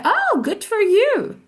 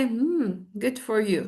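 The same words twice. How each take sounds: First: High, slow, delighted congratulation; happy for you. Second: Uninterested. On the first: Congratulating someone, really happy for you. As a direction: stretch it out, pitched way up with delight. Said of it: "I'm really happy for you". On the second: Teacher shows not being happy for you, uninterested. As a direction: congratulate without caring at all. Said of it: "مش مهتمة". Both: Shown as a demonstration.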